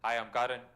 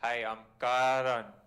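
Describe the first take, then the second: First: The name is said at a moderate, in-between pace. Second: The name is said very slowly and drawn out.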